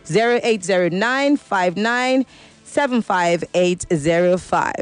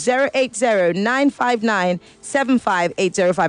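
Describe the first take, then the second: First: The number is read slowly and deliberately. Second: The number is read at normal, quicker pace.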